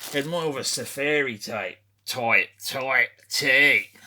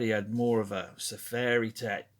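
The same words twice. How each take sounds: First: Lightly done Australian outback accent, slow and louder; a hint of Paul Hogan's Australian drawl, stretched out; Mick Dundee impression. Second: Said in the usual way. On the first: Shown as a demonstration. Australian accent for Mick Dundee describing his safari shirt. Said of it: "that's my Mick Dundee impression". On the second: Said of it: "I'm losing the accent there".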